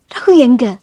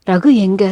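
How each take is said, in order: First: Mildly irritated, impatient question; angry demand. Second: Subdued, effortful question; weak, dry-throated. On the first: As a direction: demand his whereabouts with a touch of anger. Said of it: "சத்தமாக கோபப்பட்டுதான் பேசினாள்". (எரிச்சலான கோபக் கேள்வி) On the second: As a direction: ask as if speaking is a strain. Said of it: "தொண்டை வறண்டது போல பேசக்கூட சிரமமாக இருந்தது". (வறண்ட தொண்டையுடன் சோர்ந்த குரல்) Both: A narrator's reading.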